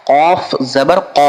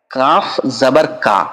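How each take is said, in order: First: "কফ জবর ক" ending on a short open "ক", no long a. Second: "কাফ জবর কা" ending on a long "কা". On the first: Teacher contrasting letters for pupils, short "ক". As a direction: say "ক" clipped, not "কা". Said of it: "ওখানে ক". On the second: Teacher contrasting letters for pupils, long "কা". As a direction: stretch "কা" with a full long a. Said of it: "এখানে কা". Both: Shown as a demonstration.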